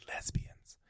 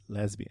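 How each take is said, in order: First: Imitating a mother's hushed whisper. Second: Said in the usual way. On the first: Mom confiding in her son about what she saw, whispered. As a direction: whisper it as if the word were taboo. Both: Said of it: "and she whispers".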